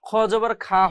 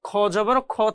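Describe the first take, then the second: First: The final vowel is light and open, like 'kha'. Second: The final vowel is dark and rounded, like 'kho'. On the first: The speaker calls it wrong. "খ জবর খা হবে না" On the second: The speaker calls it right. "খ জবর খ থেকে যাবে"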